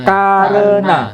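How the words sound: The first vowel is a, the second e. This is how Indonesians say it. "kita mengatakan"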